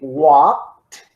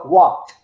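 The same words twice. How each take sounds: First: It is said slowly with a clear final T. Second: It is said quickly with a barely audible T. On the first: "I need to exaggerate what I'm doing" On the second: "will pronounce the T like very minimally"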